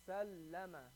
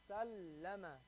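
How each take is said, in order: No difference in how they are said.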